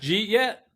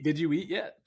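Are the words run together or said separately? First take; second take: run together; separate. First: The words are squeezed together into one word. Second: Each word is said separately and fully.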